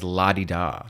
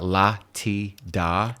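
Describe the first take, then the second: First: The middle consonant is a soft D sound. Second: The middle consonant is a crisp, hard T. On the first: The speaker calls it right. "it's la di da" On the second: The speaker calls it wrong. "she would over enunciate the la ti da"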